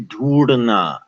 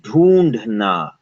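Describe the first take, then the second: First: The middle consonant is a flapped r sound. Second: The middle consonant is a breathy d sound. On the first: This follows an old spelling pronunciation. The speaker calls it wrong. "They never say dhoodna" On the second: This is how people normally say it. The speaker calls it right. "people always say dhoondhna"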